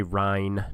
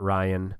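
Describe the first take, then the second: First: "Ryan" said as one syllable, Ryne, rhyming with line; "Ryan" squeezed into one syllable, like Rhine; Ryne, not Ryan. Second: "Ryan" said in two syllables, RY-an; "Ryan" with a second syllable after the long i. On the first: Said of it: "pronunciation police who are out there". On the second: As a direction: say "Ryan" the common way, as RY-un. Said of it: "I did say Ryan, not". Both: Shown as a demonstration.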